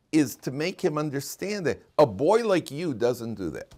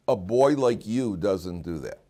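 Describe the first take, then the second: First: Said in the usual way. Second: Slow, calm reminder of who he is; calm firm praise. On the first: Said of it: "what you really want to do". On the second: Shown as a demonstration. Father to son caught misbehaving, calm and slow. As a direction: say it slowly, calm and sure. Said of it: "you say to a kid".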